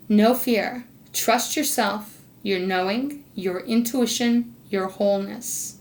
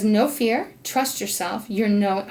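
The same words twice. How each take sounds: First: Slow, deliberate card reading. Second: Said in the usual way. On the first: Real, not acted. Reader passes Spirit's card message to Sagittarius, slowed down. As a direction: give each phrase room, with weight. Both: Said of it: "I'm gonna slow down and read this".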